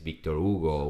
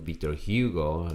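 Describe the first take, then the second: First: The name is said with a Portuguese pronunciation. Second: The name is said with an American pronunciation. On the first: The speaker calls it right. "which is the Portuguese" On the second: The speaker calls it wrong. "like American pronunciation"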